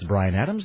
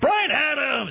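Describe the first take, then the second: First: The name is said in a plain, casual way. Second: The name is said with pushed, punchy announcer energy. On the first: "instead of the guy going like" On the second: "I was bringing, like, the stupid formatting, you know, thing forward"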